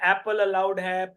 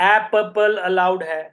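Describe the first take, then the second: First: It is said at a normal pace. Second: It is said slowly and deliberately.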